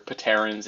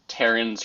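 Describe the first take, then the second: First: The word starts with a sounded P. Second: The word starts without a P sound. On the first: "if you're being pretentious" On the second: "either call it"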